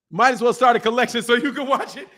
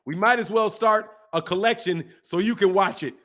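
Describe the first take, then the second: First: Repeating it through real laughter; incredulous laughing repeat. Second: Said in the usual way. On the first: Real, not acted. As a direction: crack up as you say it again. Repeats the joke, cracking up.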